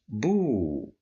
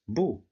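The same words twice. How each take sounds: First: The vowel is drawn out long. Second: The vowel is short and clipped. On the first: "It's longer than the first one" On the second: "the letter ba with dhamma"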